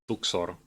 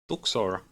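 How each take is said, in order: First: The R is rolled with a trill. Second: The R is said plainly, not rolled.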